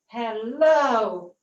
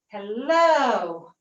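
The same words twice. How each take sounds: First: The final vowel is a closed O sound. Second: The final vowel is open, not a closed O. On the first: The speaker calls it wrong. "the weak pronunciation or bad pronunciation with O" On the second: The speaker calls it right. "swing them backwards and say"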